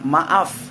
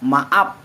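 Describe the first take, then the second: First: The final sound is an f. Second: The final sound is a p. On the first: This is the standard form. "Orang menggunakan bahasa baku akan mengucapkan maaf" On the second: This is the non-standard form. "Huruf F-nya diganti menjadi huruf P juga"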